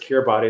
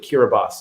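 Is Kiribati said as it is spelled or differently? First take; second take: as spelled; differently. First: The name is said just as it is spelled. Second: The name is said differently from its spelling. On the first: The speaker calls it wrong. "I've always thought of it as Kiribati" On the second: The speaker calls it right. "but it's actually Kiribati"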